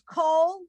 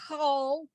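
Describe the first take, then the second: First: The word starts with a hard K sound. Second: The word starts with a guttural throat sound. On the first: "With the dot is like the hard C or the K" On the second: "Without the dot's the guttural"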